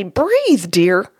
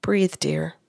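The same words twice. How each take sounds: First: Wrong tone. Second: Soft, low whisper; certain soothing tone. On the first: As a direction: BREATHE pitched up, too insistent. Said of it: "or I couldn't say". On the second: Medium passing on a wife's message, hushed and soothing. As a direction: whisper it gently to calm him. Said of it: "in a certain tone of voice". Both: Retold or imitated.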